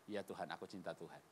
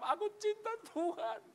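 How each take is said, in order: First: Soft, low reply; humble answer. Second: High, acted crying voice; tearful answer. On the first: Acted. Peter's humble answer to Jesus. (jawaban lirih dan rendah hati) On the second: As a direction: wail it as if moved to tears. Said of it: "Nangis dia, dia jawab". (jawaban sambil menangis terharu)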